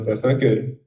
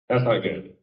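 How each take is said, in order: First: It is said calmly and gently. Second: It is said harshly, like scolding. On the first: It corrects without frightening. The speaker calls it right. "You're supposed to" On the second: It is like yelling at a dog. The speaker calls it wrong. "You shouldn't be like"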